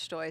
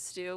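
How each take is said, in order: First: The name ends in an 'oy' vowel. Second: The name ends in an 'oo' vowel. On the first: The speaker calls it right. "actually it's pronounced Stoy" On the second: The speaker calls it wrong. "the announcers here in America pronounce it stew"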